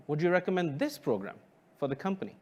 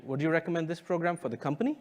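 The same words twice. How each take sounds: First: "this" pushed forward with a falling tune, rest quick; a quick question that leans on "this"; stress on this. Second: "company" stressed and rising at the end, quick pace; a brisk question that peaks on "company". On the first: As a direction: lean on the word "this" and let the sentence fall. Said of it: "I'll say the second one". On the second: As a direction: lift and hit "company" as a real question. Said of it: "let's try a third variation". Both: Shown as a demonstration.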